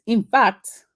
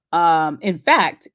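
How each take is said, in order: First: Playful fake Nigerian accent, higher; a quick hammed-up Nigerian accent. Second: Said in the usual way. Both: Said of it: "my fake Nigerian accent".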